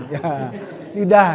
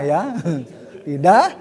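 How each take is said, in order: Both takes have the same delivery.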